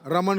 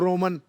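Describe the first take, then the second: First: The name is said in a standard Hindi way. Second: The name is said in a Bengali accent.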